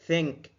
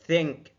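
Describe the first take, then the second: No difference in how they are said.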